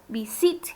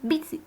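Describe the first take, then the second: First: The stress is on the last syllable. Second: The stress is on the first syllable. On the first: The speaker calls it wrong. "no digo visit" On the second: The speaker calls it right. "Tengo la fuerza de voz al principio"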